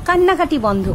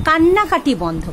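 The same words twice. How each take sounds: No difference in how they are said.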